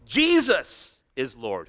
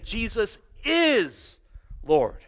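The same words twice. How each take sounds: First: The stress falls on the word Jesus. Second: The stress falls on the word is. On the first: It is this person, and no other, who is Lord. "If we put the emphasis on Jesus" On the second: It is certainly true, not merely possible. "If we put it on the is"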